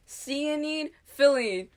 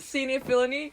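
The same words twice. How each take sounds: First: "Cyanide filling" drawn out slowly as "see a need, fill a need"; slogan said clearly. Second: "cyanide filling" run together as "seeny-filany"; misheard slogan. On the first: Host quotes the inventor's slogan, "Cyanide filling" spaced out as see a need, fill a need. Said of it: "and he was like". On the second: Host shows a childhood mishearing, "cyanide filling" blurred into seeny-filany. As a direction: slur "cyanide filling" into one quick nonsense word, seeny-filany. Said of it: "I thought they were saying". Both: Retold or imitated.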